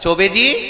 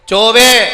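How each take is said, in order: First: The name is called out affectionately. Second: The name is called out harshly and sharply.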